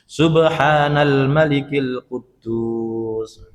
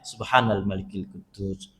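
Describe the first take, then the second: First: It is drawn out with a raised voice. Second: It is said plainly, at normal length and pitch.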